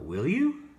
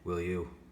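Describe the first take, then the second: First: The pitch rises at the end. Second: The pitch stays flat or falls at the end. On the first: The speaker is interested. The speaker calls it right. "when it goes up at the end, it sounds like we're interested" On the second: The speaker is not interested. The speaker calls it wrong. "I don't sound too interested"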